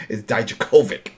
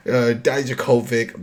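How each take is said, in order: First: Dijakovic said as die-JAH-koh-vick, stress on the middle; careful name. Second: Dijakovic drawn out slowly, die-JAH-koh-vick; slow careful name. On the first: Tries to get the wrestler's name right. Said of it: "I always mess this up". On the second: Announces the match with the tricky name said slowly. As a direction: take Dijakovic slowly, hitting the middle syllable. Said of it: "My Brooklynese is too strong". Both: Shown as a demonstration.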